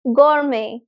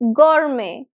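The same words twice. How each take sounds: The two takes are said the same way.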